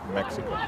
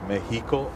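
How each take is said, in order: First: The x is sounded like ks. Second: The x is sounded like an h. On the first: "instead of Mexico" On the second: "our X's are an H sound, so it's Mexico"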